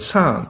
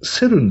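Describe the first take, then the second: First: It is said as one long syllable, sahn. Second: It is said as three Japanese syllables, se-ru-n. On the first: This is the reading understood by people abroad. The speaker calls it right. "英語の県ではこれはサーンと言いますね" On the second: This is the reading used only in Japan. The speaker calls it wrong. "セルンと読むのは和製英語ですね"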